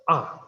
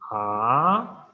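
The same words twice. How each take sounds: First: The pitch falls sharply from high to low. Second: The pitch rises from mid to high. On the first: "the fourth tone is the falling tone, totally falling" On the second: "So rising tone"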